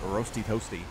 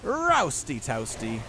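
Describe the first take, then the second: First: It is said in the speaker's ordinary accent. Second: It is said in a put-on Australian accent.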